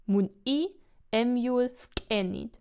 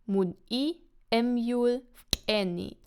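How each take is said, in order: The two takes are said the same way.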